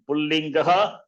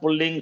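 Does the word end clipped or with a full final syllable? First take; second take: full; clipped. First: The word ends with a full, audible final syllable. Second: The word ends clipped, its final sounds dropped. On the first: The speaker calls it right. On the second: The speaker calls it wrong.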